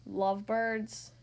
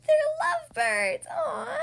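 First: Slow, low, puzzled echo. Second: High, loud delighted gush; gushing excited. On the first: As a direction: drag it out, baffled. Elephant echoes in disbelief. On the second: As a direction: squeal it out with delight. Pig gushes about lovebirds. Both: Acted.

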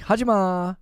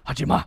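First: Hajima lifted high with the last syllable held; sing-songy. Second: Hajima short and firm, ending cut off. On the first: Streamer showing how Koreans say stop doing that, sing-songy Hajima. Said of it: "sing-songy". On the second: Streamer showing an angrier stop doing that, firm Hajima. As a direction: say Hajima as a firm, quick order. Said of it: "I think that'll be very firm". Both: Shown as a demonstration.

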